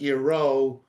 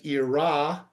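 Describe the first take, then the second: First: The word ends with an 'o' vowel. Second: The word ends with an 'a' vowel. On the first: This is the traditional way it is read aloud. The speaker calls it right. "but Iro with a vav at the end" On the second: This is how the written text would seem to read. The speaker calls it wrong. "not as Ira with a hey at the end"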